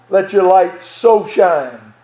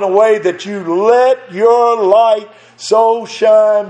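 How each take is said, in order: First: "so" drawn out and leaned on, the whole line slow; stress on so. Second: Said in the usual way. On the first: Shown as a demonstration. Preacher to the church, stress on so, like his father did. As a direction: press hard on "so" in "Let your light so shine". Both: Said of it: "Brother Daddy always emphasized the word so".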